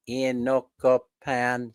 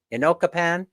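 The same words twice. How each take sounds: First: "Ocopan" said very slowly, syllable by syllable; slow careful pronunciation. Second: Said in the usual way. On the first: Shown as a demonstration. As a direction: spell out "Ocopan" slowly, o-co-pan. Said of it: "I have to go real slow". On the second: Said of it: "How do you say it, Mel?".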